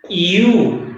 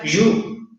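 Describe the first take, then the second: First: It begins with a soft ee-like glide. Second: It begins with a buzzy, j-like sound. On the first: The speaker calls it right. "se pronuncia con una I y una U" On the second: The speaker calls it wrong. "no se pronuncia you, como de jugo yupi"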